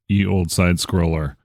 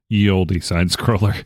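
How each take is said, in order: First: Olde is said as one syllable, 'old'. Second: Olde is said as two syllables, 'oldie'.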